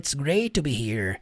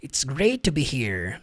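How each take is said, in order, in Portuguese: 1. Os dois sons de T se unem em um só. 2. Os dois sons de T se unem em um só.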